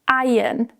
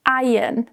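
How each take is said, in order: First: The R sound is silent in the word. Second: The R sound is silent in the word.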